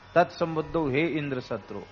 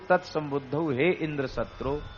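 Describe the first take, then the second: First: The high pitch falls on the first syllable. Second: The high pitch falls on the last syllable.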